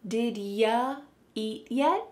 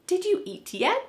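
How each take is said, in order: First: The word you is reduced to ya. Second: The word you is said in full. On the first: "Here the word you is being reduced to ya" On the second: "But do you think we say it like this? Nope"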